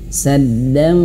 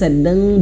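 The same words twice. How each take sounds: First: The nasal ending is shaped toward an f. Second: The nasal ending is a plain hum. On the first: The speaker calls it right. "bibir kita sudah mau mengucapkan huruf fa" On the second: The speaker calls it wrong. "bibirnya tidak disentuhkan, itu keliru"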